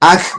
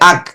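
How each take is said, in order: First: The final consonant is released with a slight bounce. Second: The final consonant stops dead with no release. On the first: "বলটা পড়ার পরে আবার একটু উপরে উঠলো" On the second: "তাহলে থেমে গেল"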